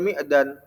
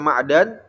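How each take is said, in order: First: The first vowel is a close 'i'. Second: The first vowel is an open 'a'. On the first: "bisa dibaca Mi'dan" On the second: "bisa dibaca Ma'dan"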